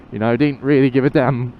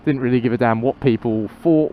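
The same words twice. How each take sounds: First: On a bumpy road. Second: Said in the usual way. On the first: Real, not acted. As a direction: voice jolted by a bump. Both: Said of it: "Oh, that was a nasty bump".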